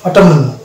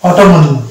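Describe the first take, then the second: The two takes are said the same way.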